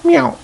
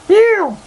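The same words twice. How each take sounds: First: High, short mock meow falling at the end; imitated cat meow, falling. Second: Even higher, slightly louder mock meow; squeaky imitated cat meow. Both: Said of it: "Basil said".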